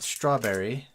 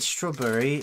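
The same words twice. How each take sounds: First: It is said with an American accent. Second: It is said with a British accent. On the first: The speaker calls it wrong. "and not strawberry" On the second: The speaker calls it right. "isn't it strawberry"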